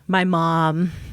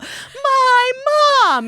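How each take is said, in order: First: It is said softly and affectionately. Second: It is shouted loudly and angrily. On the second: "pretty soon yelling at each other"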